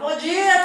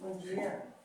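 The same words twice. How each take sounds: First: It is said with high, lively energy. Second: It is said with low, flat energy.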